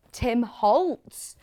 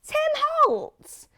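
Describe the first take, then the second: First: Said in the usual way. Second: Squealed far higher, louder, thrilled; excited squeal. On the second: Real, not acted. Host thrilled to see the designer's fabric, squealing. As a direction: shriek the name like a fan.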